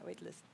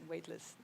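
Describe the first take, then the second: First: The word sounds like 'waitlist', a different compound. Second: The word sounds like 'weightless', with a clear ending.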